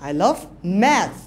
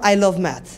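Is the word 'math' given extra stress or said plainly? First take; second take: stressed; plainly. First: The word 'math' carries strong stress. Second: It is said flatly with no word stressed. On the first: The listener's attention goes to the subject. The speaker calls it right. "I'm giving stress on math" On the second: Nothing in the sentence stands out. The speaker calls it wrong. "Normally বলেছি দেখো ... কোনো up down আছে ... no"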